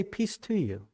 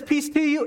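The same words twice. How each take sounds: First: Soft, hushed, calming "Peace to you"; a hushed, tender peace offered; gentle greeting. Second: "Peace to you" lifted much higher, cheerful and sudden; a high, sunny call of peace; bright greeting. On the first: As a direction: settle frightened friends with a quiet blessing. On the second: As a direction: pop out with a high, startling hello. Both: Retold or imitated. Jesus greets the frightened disciples.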